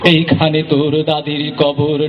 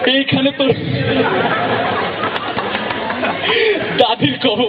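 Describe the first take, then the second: First: It is recited in a smooth, polished manner. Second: It is said while laughing and breaking off. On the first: "একদম professional" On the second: "হাসে বেশি"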